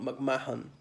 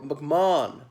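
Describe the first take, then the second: First: The middle H is clearly sounded. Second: The middle H is not sounded. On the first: The speaker calls it wrong. "It's not McMahon" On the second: The speaker calls it right. "The H is silent"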